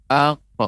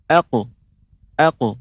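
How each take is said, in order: First: "Aku" with a wrong gap before the bounced q; qalqalah keliru. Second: "Aku" with the q bounced at once, no gap; qalqalah cepat. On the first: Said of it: "untuk qalqalahnya tidak ada jeda". ("Aku" keliru, qalqalah diberi jeda) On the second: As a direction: bounce the q of "Aku" quickly in one go. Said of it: "Tapi lebih cepat". ("Aku" dengan qalqalah cepat tanpa jeda) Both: Shown as a demonstration.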